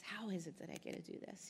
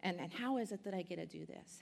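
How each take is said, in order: First: The same question again, much softer, to herself; awed near-murmur repeat; softer echo. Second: Said in the usual way. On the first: Real, not acted. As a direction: let it drop away softly, half to yourself. Repeats her wondering question.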